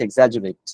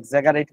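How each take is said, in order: First: The middle consonant is a soft j sound. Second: The middle consonant is a hard g sound. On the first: The speaker calls it right. "এটা উচ্চারণ হচ্ছে এক্সাজুরেট" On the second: The speaker calls it wrong. "এই বানানটা দেখে এক্সাগারেট বা এই টাইপের কিছু মনে হইতে পারে"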